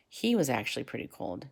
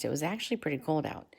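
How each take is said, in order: First: "He" picked out as the contrast word; stress on HE. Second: Said in the usual way. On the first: A narrator's reading. Narrator turning from the weather to Jules himself, stress on "He". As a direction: lean on "He" at the start, then let the rest fall away.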